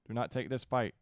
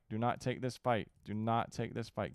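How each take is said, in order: First: Loud, pressing order; urgent command. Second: Said in the usual way. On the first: Real, not acted. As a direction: shout it as a warning. Ordering units to avoid battle.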